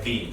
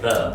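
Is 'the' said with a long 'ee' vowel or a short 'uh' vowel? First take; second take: long ee; short uh. First: It is said in its form used before vowels. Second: It is said in its form used before consonants. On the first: The next word starts with a vowel. "At the start of next word, so it's pronounced like the" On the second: The next word does not start with a vowel. "Otherwise, it's pronounced like the"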